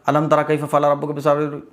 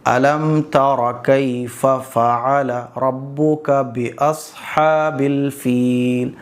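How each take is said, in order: First: The words are rushed together quickly. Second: The words are read at moderate speed. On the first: The speaker calls it wrong. "हम ऐसे पढ़ते चले जाते हैं, ये गलत है।" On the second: The speaker calls it right. "थोड़ा सा स्पीड बढ़ा दो।"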